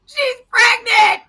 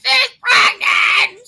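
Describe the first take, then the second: First: Slow, high wailing shout; shouting the news to husband, slow and high; distraught shout. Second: Slow, high wailing shout; wailing the news to lawyer on the phone; distraught wail. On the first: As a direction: wail it out loud and slow. First telling. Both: Retold or imitated.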